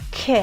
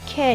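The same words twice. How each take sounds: First: The k is strong, with a puff of air. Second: The k is plain, without a strong puff. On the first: The speaker calls it right. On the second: The speaker calls it wrong. "که نیست"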